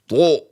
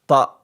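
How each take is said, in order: First: The vowel is said with rounded lips. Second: The vowel is said with spread, unrounded lips. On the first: The speaker calls it wrong. "no need to do your mouth like to" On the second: The speaker calls it right. "make sure that you pronounce it like ta"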